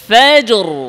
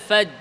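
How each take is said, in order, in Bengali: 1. শব্দটি j-এর পরে একটি শোনা যায় এমন r দিয়ে শেষ হয়। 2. শব্দটি j-তে থামে, কোনো r নেই। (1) "জিম সাকিনের পরে র সাকিন" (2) "অনেকে আছে এভাবে বলে ওয়াল ফাজ, ফাজ কে বসে থাকে"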